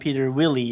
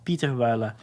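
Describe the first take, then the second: First: The surname sounds like 'Willie'. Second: The surname sounds like 'Wooler'. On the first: The speaker calls it wrong. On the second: The speaker calls it right.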